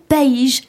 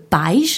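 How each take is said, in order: First: "país" as pa-EESH, drawn out slowly; stress on the i. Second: "pais" with the weight on the A and the i gliding after it; no stress on the i. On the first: Presenter contrasts country with parents, stressed i. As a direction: put the weight on the i of "país". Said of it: "si on met un accent sur le i". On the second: Presenter contrasts parents with country, unstressed i. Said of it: "sans accent tonique". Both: Shown as a demonstration.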